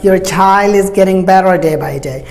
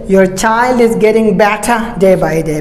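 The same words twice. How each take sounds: First: American accent, with the t sounding like soft d. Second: British accent, with a clear t sound. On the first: "Americans will say better. As I told you that the American T is soft D" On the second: "But British will say"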